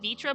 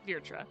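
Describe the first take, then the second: First: The first syllable has no r sound. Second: The first syllable has an r sound. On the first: The speaker calls it wrong. "I keep saying Vitra" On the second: The speaker calls it right. "there's an R, so it's Vir- uh, Virtra. Virtra is how you say it"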